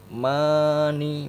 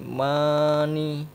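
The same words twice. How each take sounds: No difference in how they are said.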